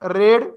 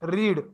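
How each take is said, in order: First: The vowel is short, like in 'red'. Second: The vowel is long, like in 'reed'. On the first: It is the past form of the verb. "Second फॉर्मचा उच्चार रेड करायचा" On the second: It is the past participle of the verb. "Third फॉर्मचा पण उच्चार रीडच आहे"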